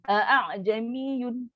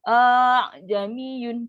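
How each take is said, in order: First: A full glottal catch comes before 'jamiyun'. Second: A long drawn-out vowel comes before 'jamiyun'. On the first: The original full hamzah is kept instead of softened. "sebutan yang salah" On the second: The hamzah is turned into a full long vowel. "Kita panjangkan A"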